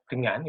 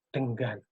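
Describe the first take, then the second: First: The middle ng sound is plain, without a hard g. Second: The middle ng sound is followed by a hard g. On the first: "kalau mereka bilang dengan" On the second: "itu pasti jadinya denggan"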